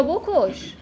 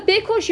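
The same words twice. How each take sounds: First: بکش said "bokosh", first vowel o; zamme pronunciation. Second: بکش said "bekosh", first vowel e; kasre pronunciation. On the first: Teacher contrasting dialect forms, بکش with o: "bokosh". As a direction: open بکش with a rounded "bo". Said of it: "بعضیا با ضمه". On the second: Teacher contrasting dialect forms, بکش with e: "bekosh". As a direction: open بکش with a short "be". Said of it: "بعضیا با کسره". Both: Shown as a demonstration.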